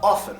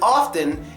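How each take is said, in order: First: The second vowel is reduced to a schwa. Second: The second vowel is full, not reduced. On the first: The speaker calls it right. "The E gets schwa" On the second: The speaker calls it wrong. "This one isn't often"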